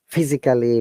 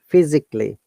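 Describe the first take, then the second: First: The vowel before the final ly is pronounced. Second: The vowel before the final ly is silent. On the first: The speaker calls it wrong. "most of the people will pronounce it like" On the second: The speaker calls it right. "we do not pronounce A. So it should be"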